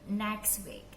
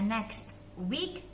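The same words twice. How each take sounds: First: The t sound is dropped. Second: The t sound is clearly pronounced. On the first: The speaker calls it right. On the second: The speaker calls it wrong.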